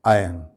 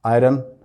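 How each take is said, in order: First: आयरन said "आयन", no r; silent r. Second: आयरन with a full r, "आयरन"; common iron. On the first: A teacher gives students the correct form, r silent. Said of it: "सही इसका pronunciation क्या है". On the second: A teacher shows the common way students say it, r sounded. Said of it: "बहुत commonly इसको इस तरह से pronounce". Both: Shown as a demonstration.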